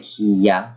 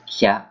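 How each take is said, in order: First: It is said as two separate syllables. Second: It is blended into one single syllable. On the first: "You kind of say ki ya" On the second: "but you combine it together"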